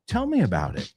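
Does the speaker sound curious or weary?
curious. It sounds curious and eager to hear more. The speaker wants to hear the story. "Ah, sí, cuéntame"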